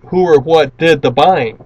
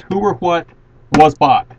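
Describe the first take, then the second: First: "did the buying" said slower and louder, as the mistake; mock the wrong version by leaning on "did the buying"; wrong formula question. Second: "was bought" said plainly with a firm, louder finish; correct formula question. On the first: Teacher to class, loudly showing the question not to ask. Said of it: "Do not ask something like". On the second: Teacher to class, firmly modelling the right formula question. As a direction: ask it exactly, landing hard on "was bought". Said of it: "ask this question exactly as it is". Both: Shown as a demonstration.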